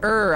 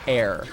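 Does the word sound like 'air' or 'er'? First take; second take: er; air. First: The word rhymes with 'her'. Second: The word rhymes with 'hair'. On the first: "They say er, I think, in World's End" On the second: "I don't think they say air"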